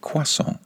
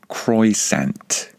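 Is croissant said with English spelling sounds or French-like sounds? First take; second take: French-like; English spelling. First: It is said with French-like sounds. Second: It is read with plain English spelling sounds. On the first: "the native English speaker pronounces it croissant" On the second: "if you read it and try to pronounce it phonetically"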